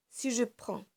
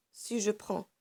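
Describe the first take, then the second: No difference in how they are said.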